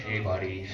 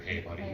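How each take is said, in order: First: Lower, gentle bad-news "Hey, buddy"; soft ominous "Hey, buddy". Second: Quieter, lower "Hey, buddy"; the dreaded kindly warning "Hey, buddy"; softer ominous "Hey, buddy". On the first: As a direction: ease into trouble like a coach about to let a kid down. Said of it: "this is how he hit me up with it". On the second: Retold or imitated. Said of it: "It's never good when you hear".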